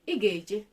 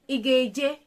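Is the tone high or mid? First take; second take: mid; high. First: It is said with a level mid tone. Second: It is said with a raised high tone. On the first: It states that you will go. "Normal sentence, mid tone" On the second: It asks whether you will go. "question, high tone"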